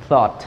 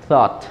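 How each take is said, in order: The two takes are said the same way.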